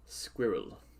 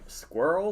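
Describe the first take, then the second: First: The word is said as two syllables. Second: The word is said as one syllable. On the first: The speaker calls it right. "I like it. It sounds a little bit better to me" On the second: The speaker calls it wrong. "that's like one syllable and altogether inferior"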